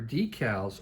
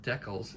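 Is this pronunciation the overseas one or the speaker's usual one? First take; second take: usual; overseas. First: It uses the speaker's own usual pronunciation. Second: It uses the pronunciation heard from overseas speakers.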